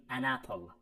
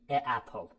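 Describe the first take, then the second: First: "an apple" with the n sliding into "apple"; correct form. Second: "a apple" with a bare "a" before the vowel; wrong form. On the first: Teacher giving students the correct model, smooth. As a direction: link "an" smoothly onto "apple". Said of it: "باید بگیم an apple". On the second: Teacher showing students the mistake, mildly awkward. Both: Shown as a demonstration.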